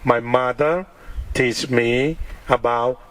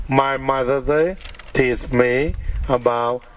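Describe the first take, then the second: No difference in how they are said.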